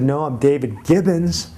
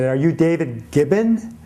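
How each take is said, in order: First: Said in the usual way. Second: Caller imitated with a light foreign accent; lightly accented question, name said as "Gibbon"; a hint of a foreign accent. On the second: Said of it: "this man called me who had this foreign accent".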